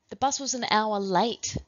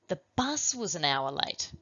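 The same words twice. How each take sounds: First: The word late is stressed. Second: The word bus is stressed. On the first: "then late"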